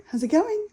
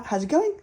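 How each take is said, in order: First: Much higher, insistent rising repeat; husband pressing again, much higher and insistent; imitating Jacob pushing harder. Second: Higher, rising eager question; mock the nagging husband; husband nagging about her period, higher rising question; imitating Jacob asking. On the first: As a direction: push it up like a pestering husband. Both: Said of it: "Jacob is like".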